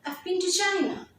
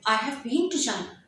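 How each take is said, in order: First: The word have is contracted to 've. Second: The word have is said in full. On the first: The speaker calls it right. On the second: The speaker calls it wrong. "Rather than saying I have been to China"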